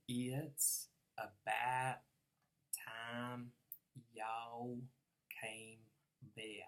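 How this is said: It has a Southern drawl with long, held vowels. "If I'm a southerner"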